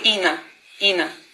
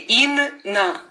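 First: The n sound is short and single. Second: The word breaks between the two n sounds. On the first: "если бы мы не сказали вот чуть-чуть дольше нун, было бы Ина" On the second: "не говорим, если удвоение ин на"

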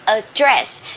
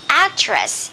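First: It is said with a British pronunciation. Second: It is said with an American pronunciation. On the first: "And in British English, we say address" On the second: "In American English, we say address"

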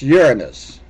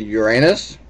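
First: It is said with the stress on the first syllable. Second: It is said with a long second syllable, like 'your anus'. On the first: The speaker calls it right. "it's Uranus" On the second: The speaker calls it wrong. "We don't say Uranus"

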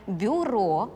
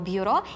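First: The first consonant is softened, with no separate glide. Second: A separate y-glide follows the first consonant. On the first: The speaker calls it right. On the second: The speaker calls it wrong.

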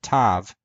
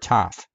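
First: The word ends with a v sound. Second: The word ends with an f sound. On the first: "whether we should pronounce it tav or taf" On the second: "modern Greeks seem to all agree that it should be taf"

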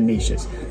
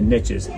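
First: The vowel is long, like in quiche. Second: The vowel rhymes with the one in riches. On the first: The speaker calls it wrong. "not the niches" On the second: The speaker calls it right. "the riches are in the niches"

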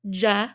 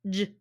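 First: The jaw drops and a schwa vowel follows. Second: The consonant sounds alone with no vowel after. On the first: The speaker calls it wrong. "did you make sure that your jaw isn't dropping to make the schwa? So we don't want to say j" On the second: The speaker calls it right. "It's j"

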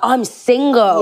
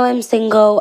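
First: It sounds upbeat and confident, like good news. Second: It sounds glum and downbeat, like a complaint. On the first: Being single is a good thing. The speaker calls it right. "if I'm single, I'm like, I'm single" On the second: Being single is a bad thing. The speaker calls it wrong. "people say it as a bad thing. They're like, no, I'm single. And I'm like, why are you saying it like that?"

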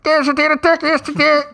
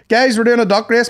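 First: It imitates a muffled, tinny bullhorn voice. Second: It is said in a plain, clear voice.

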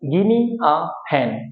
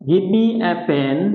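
First: Give me is run together as gimme. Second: Give me is said as two full words. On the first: "এটাকে আমরা বলতে পারি গিমি a fan" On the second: "গিভ মি একই অর্থে ব্যবহৃত হয়"

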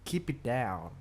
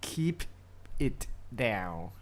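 First: The phrase is said quickly and run together. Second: The phrase is said slowly and carefully.

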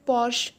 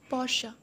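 First: The word ends without a final vowel sound. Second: The word ends with a final 'uh' vowel. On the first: The speaker calls it wrong. "Porsche or Porsche, it's wrong" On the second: The speaker calls it right. "E turns into A"

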